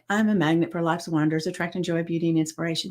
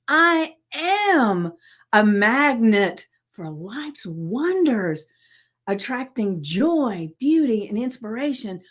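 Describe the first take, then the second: First: It is said flatly, without conviction. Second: It is said with strong conviction.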